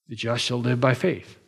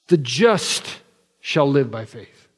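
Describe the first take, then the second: First: The stress is on "by faith". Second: The stress is on "the just".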